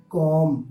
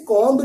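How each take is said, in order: First: کومب said as "kom", silent b; کومب with the b dropped; correct comb. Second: کومب said as "komb", b sounded; کومب with the b pronounced; wrong comb. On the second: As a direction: say کومب with a clear b at the end, the wrong way. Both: Shown as a demonstration. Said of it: "ہم اسے کومب نہیں پڑھیں گے".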